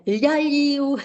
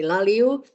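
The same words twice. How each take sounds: First: Laliu drawn out with exaggerated soft "ly" sounds; higher, slow laliu, each l palatalized; over-soft l. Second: Said in the usual way. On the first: Shown as a demonstration. Teacher showing what nobody would say, over-soft laliu. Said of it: "nobody would do that". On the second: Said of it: "but we would say laliu".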